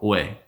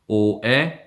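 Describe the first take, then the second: First: The two vowels merge into one vowel sound. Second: The two vowels are said as separate sounds. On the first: "you can make that into one vowel" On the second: "if you try to pronounce o and e"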